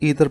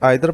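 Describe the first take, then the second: First: The first vowel sounds like 'ee'. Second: The first vowel sounds like 'eye'. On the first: This is the American pronunciation. "American English में इसे ईदर पढ़ा जाता है" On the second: This is the British pronunciation. "British English में इसे आइदर पढ़ा जाता है"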